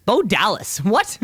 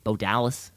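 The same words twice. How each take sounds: First: Real disbelief, pitched up; startled double take; surprised. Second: Said in the usual way. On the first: Real, not acted. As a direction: repeat the name in higher-pitched astonishment. Surprised repeat of name just read.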